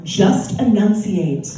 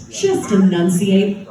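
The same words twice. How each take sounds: First: Slow, over-articulated "just enunciate"; slow and crisp; enunciate clearly. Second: Slow, emphatic "Just enunciate"; enunciate again. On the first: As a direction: say every syllable slowly. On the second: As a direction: hammer the consonants. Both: Shown as a demonstration. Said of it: "So I like to say".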